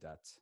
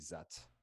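First: The word begins with a d sound. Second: The word begins with a z sound. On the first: The speaker is concentrating a little more. "when they're concentrating a little more, they'll say dat" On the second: The speaker is not concentrating and sounds very French. "when they're not concentrating, they'll say zet"

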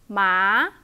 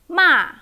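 First: The pitch rises from low to high. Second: The pitch falls sharply from high.

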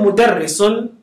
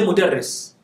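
First: The word ends with a final -un syllable. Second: The word ends on a consonant, no final vowel. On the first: "instead of saying mudarrisun" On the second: "you can decide not to pronounce the last vowel"

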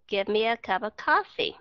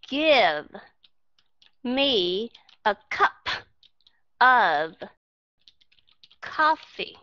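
First: It is said fast, words run together. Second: It is said slowly, each word separate.

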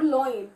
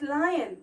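First: The first vowel sounds like oy. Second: The first vowel sounds like eye. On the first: The speaker calls it wrong. "some of the students pronounce it as loin. That is totally incorrect" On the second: The speaker calls it right. "it's lion"

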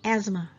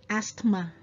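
First: No 't' or 'th' sound is heard in the middle. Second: A 't' or 'th' sound is heard in the middle. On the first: The speaker calls it right. "no, it's asthma" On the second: The speaker calls it wrong. "So it's not asthma"

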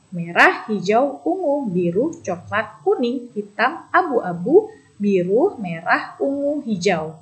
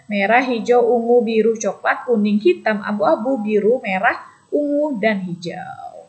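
First: The list is read at a medium pace. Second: The list is read at a fast pace.

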